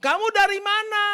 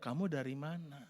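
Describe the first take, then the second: First: Much higher and louder, accusing; accusing shout. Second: Soft, lower, calm question; calm asking. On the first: Preacher contrasting a harsh shouted question, high and loud. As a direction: yell it like a suspicious interrogation. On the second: Preacher contrasting the calm version of the question, soft. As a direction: ask it quietly and kindly. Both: Shown as a demonstration.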